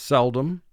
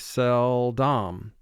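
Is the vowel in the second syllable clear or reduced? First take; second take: reduced; clear. First: The second syllable's vowel is reduced to a schwa. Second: The second syllable's vowel is said clearly as written. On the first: This is how the word is normally spoken. "Spoken vocabulary for this word is seldom" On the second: This helps to remember the spelling. "we exaggerate the pronunciation of this word slightly to conform to spelling"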